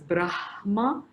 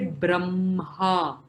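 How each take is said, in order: First: The h sound comes before the m. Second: The h sound comes after the m. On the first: This follows the order of the written letters. "I would prefer pronouncing it as Brahma" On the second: This is the traditional pronunciation. "the h after the m, and that is how traditionalists do it"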